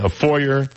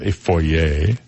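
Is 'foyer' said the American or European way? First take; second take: American; European. First: It is said the American way. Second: It is said the European way.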